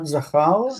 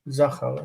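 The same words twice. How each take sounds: First: The stress is on the last syllable. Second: The stress is on the first syllable. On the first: The speaker calls it wrong. "Not zachal" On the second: The speaker calls it right. "notice the placement of the stress on this word"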